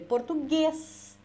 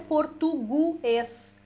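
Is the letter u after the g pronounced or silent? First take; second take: silent; pronounced. First: The u after the g is silent. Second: The u after the g is pronounced. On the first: The speaker calls it right. "A gente lê" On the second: The speaker calls it wrong. "Por que, que a gente não lê"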